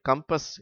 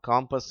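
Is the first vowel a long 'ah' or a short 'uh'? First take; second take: short uh; long ah. First: The first vowel is a short 'uh'. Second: The first vowel is a long open 'ah'. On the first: The speaker calls it right. "கம்பஸ் என்றுதான் உச்சரிக்க வேண்டும்" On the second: The speaker calls it wrong. "காம்பஸ் என்று உச்சரிக்க கூடாது"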